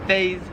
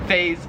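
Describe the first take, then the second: Both takes have the same delivery.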